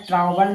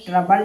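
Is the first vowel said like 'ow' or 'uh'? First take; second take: ow; uh. First: The first vowel is an 'ow' sound. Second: The first vowel is a short 'uh' sound. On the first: The speaker calls it wrong. "वो सारा ट्राउबल नहीं" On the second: The speaker calls it right. "यानी ट्रबल इसे पढ़ेंगे"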